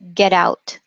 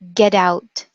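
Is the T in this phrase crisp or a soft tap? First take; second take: tap; tap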